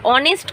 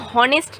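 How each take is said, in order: First: The word starts with a vowel, no h sound. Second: The word starts with an audible h sound. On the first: The speaker calls it right. "यहाँ पर एच silent रहता है" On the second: The speaker calls it wrong. "ऑनेस्ट को हॉनेस्ट नहीं बोलते"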